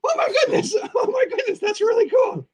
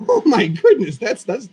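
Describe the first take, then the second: First: Very high, squeaky creature giggling; Boogeyman puppet voice. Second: Said in the usual way. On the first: Acted. Puppeteer correcting his slip of voice, very high giggly squeak. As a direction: redo it in a piping puppet falsetto. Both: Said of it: "I started talking in my Dead Skeleton voice".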